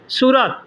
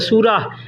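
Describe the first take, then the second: First: The word ends with a t sound. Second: The word ends with an h sound. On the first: "सूरत भी बोल सकते हैं" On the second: "photo last में ह का इस्तेमाल करेंगे"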